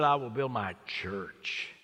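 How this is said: The word 'my' is stressed. The church belongs to him. "Maybe that was what he was emphasizing"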